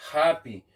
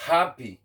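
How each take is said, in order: Both takes have the same delivery.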